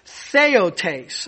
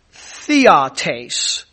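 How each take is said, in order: First: "theotes" said as thay-OH-tays; "theotes" with a longer vowel, thay-OH-tays; other Greek word theotes. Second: "theotes" said slowly as THEE-ah-tays; "theotes" with the Greek stress, THEE-ah-tays; Greek word theotes. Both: Shown as a demonstration. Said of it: "it's very similar to another word".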